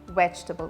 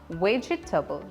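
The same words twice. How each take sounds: First: No extra vowel sound follows the 'veg' part. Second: An extra vowel sound follows the 'veg' part. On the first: The speaker calls it right. "We don't have an E sound in between" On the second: The speaker calls it wrong. "it's not vegetable"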